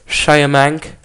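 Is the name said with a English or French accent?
English. The name is said with an English accent.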